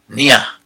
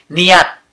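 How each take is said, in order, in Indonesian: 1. Kata ini diakhiri dengan bunyi h. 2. Kata ini diakhiri dengan bunyi t. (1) "Jarang ada yang membacanya niyah"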